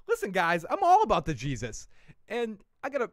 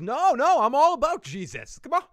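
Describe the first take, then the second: First: Said in the usual way. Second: High, loud pleading insistence; pleading protest. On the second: Retold or imitated. Heahmund begging Alfred, high loud protest. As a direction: cry out your devotion, much higher and louder. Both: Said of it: "he goes".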